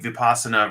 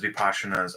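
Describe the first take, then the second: First: The word is said in its Pali form. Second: The word is said in its Sanskrit form. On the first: "Pali versus Sanskrit" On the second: "Pali versus Sanskrit"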